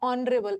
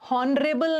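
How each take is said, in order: First: The word starts with a vowel sound. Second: The word starts with an h sound. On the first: The speaker calls it right. "इसका एच silent है" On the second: The speaker calls it wrong. "हॉनरेबल नहीं होता है"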